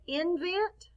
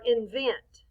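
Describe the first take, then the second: First: INVENT wrongly accented on IN, rising; misplaced punch on the start of INVENT; stress on first syllable. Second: INVENT with a strong VENT, falling; weight on the last syllable of INVENT; stress on second syllable. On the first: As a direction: say INVENT as IN-vent. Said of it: "this is different". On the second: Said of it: "We say vent a little louder". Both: Shown as a demonstration.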